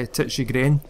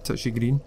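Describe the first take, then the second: First: The second word has a short e vowel. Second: The second word has a long ee vowel. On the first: The speaker calls it right. "I'm sure that's how you pronounce it" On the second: The speaker calls it wrong. "it's not Green"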